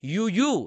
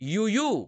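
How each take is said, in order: No difference in how they are said.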